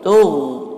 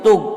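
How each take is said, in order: First: The final consonant lets air keep flowing out. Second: The final consonant stops the air completely. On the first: The speaker calls it right. "kalau kita sukunkan dia masih bisa keluar angin" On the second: The speaker calls it wrong. "Bukan tug"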